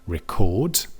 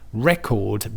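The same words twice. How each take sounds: First: The stress is on the second syllable. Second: The stress is on the first syllable. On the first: It is the verb. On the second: It is the noun.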